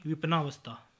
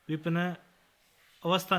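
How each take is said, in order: First: Said in the usual way. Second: विपन्न अवस्था split into two words; mispronunciation. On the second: Shown as a demonstration. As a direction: break विपन्न अवस्था with a pause, short a. (विपन्न अवस्था, अलग-अलग) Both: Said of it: "नहीं".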